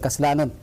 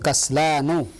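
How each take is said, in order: First: The word ends with a final n sound. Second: The word ends without a final n sound. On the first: The speaker calls it wrong. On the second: The speaker calls it right.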